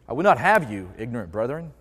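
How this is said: It is read with a shifted, joking inflection.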